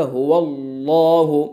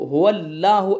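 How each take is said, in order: First: Slow हुवल्लाहु with a heavy, full-mouthed lam; the right way: हुवल्लाहु full and drawn out; demonstrating the correct हुवल्लाहु; correct full Allah. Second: हुवल्लाहु with a light, thin lam, at normal pace; the mistaken हुवल्लाहु said thin; demonstrating the wrong हुवल्लाहु; wrong thin Allah. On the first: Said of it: "मुंह भर के पढ़ेंगे तो पुर हो जाएगा". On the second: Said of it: "ऐसे नहीं पढ़ेंगे". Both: Shown as a demonstration.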